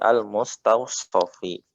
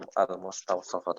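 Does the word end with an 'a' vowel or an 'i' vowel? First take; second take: i vowel; a vowel. First: The word ends with an 'i' vowel. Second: The word ends with an 'a' vowel. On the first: The speaker calls it right. "tapi al-mustawshafi" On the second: The speaker calls it wrong. "bukan al al-mustawshafa"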